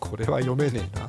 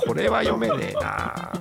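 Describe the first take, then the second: First: It is said in a plain casual tone. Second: It is said in a bright letter-reading tone.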